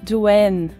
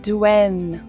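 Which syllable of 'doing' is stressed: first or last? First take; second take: last; last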